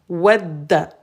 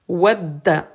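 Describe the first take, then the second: Both takes have the same delivery.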